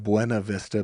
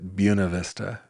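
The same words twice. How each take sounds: First: The name is said the way it is spelled. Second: The name is said the local way. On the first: "a place spelled Buena Vista" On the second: "but they pronounced it Buena Vista"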